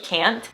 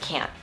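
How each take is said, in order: First: The final T is clearly released. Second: The final T is not released. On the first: The speaker calls it wrong. "It's a can plus T" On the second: The speaker calls it right. "The actual way that us native speakers say this"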